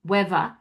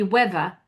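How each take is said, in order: The two takes are said the same way.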